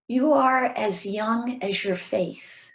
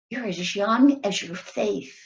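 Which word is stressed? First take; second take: faith; young. First: The phrase is said without special stress on young. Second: The phrase as young as is stressed.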